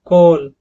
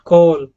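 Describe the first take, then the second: No difference in how they are said.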